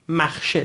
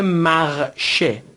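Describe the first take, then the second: First: Said in the usual way. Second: مغشه split slowly into two syllables; teacher breaking مغشه into its syllables; syllable-by-syllable demo. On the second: Shown as a demonstration. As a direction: sound out مغشه in French, part by part.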